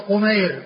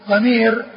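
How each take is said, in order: First: It is said with vowels u then ay. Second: It is said with vowels a then long i. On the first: This is everyone else with this name. "فهو قمير بالتصغير" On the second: This is the one woman with this name. "قمير بالتكبير"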